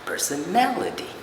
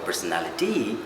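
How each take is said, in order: First: The stress falls on the third-last syllable. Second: The stress falls away from the third-last syllable. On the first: The speaker calls it right. "it's the third last syllable that needs to be stressed" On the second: The speaker calls it wrong. "It's not, it's not personality"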